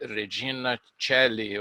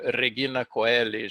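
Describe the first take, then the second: First: It is pronounced with an Italian-influenced sound. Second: It is pronounced in the classical Latin way. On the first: "a pronúncia já tem influência do italiano" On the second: "não é aquele latim clássico"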